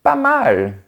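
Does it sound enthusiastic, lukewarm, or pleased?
pleased. It sounds pleased and clearly approving. It is good. "ça signifie que c'est bien"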